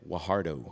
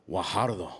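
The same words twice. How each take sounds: First: The name is said with an English accent. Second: The name is said with a Spanish accent. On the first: "Normally, I would have said Guajardo" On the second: "But I did it like on Telemundo"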